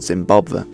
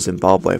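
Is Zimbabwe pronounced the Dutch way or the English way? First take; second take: Dutch; English. First: The name is pronounced the Dutch way. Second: The name is pronounced the English way. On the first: "Dutch pronunciation" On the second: "probably in English"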